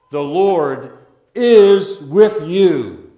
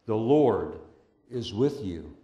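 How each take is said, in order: First: Each word slow and loud, weight on IS; slow proclamation. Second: The Lord is with you, said softly and low. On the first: Pastor proclaiming to the congregation, slow and loud. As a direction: drive home every word. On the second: Pastor reassuring the congregation, soft and low. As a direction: drop to a hush, intimate. Same phrase dropped soft. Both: Real, not acted.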